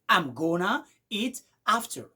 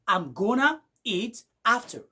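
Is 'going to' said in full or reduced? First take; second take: reduced; reduced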